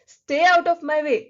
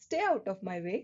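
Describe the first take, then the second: First: Loud, slow, angry; angry loud command. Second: Said in the usual way. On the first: Shown as a demonstration. Teacher scolding someone to stay away, loud and angry. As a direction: bark it out like a scolding. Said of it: "strong emotion बताया और जोर से बोला, गुस्से के साथ". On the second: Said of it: "अगर मैं नॉर्मल तरीके से बोलूं".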